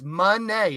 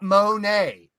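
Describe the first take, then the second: First: It sounds like the word money. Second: It sounds like the famous painter's name. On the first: The speaker calls it right. "like the word money. It's Monet" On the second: The speaker calls it wrong. "It's not Monet. She's not a fucking painter"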